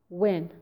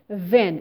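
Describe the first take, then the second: First: The word begins with a w sound. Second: The word begins with a v sound. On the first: The speaker calls it right. "instead of when" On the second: The speaker calls it wrong. "They say ven"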